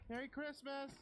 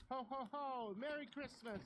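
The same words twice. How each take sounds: First: Put-on high distant children's holler; kids hollering. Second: Put-on high excited child's shout; child yelling. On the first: Neighbor kids hollering greetings back to the girl. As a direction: call back down the street. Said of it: "they hollered one after another". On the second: Little girl shouting Christmas greetings into the night. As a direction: yell it to the night sky. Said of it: "I screamed at the top".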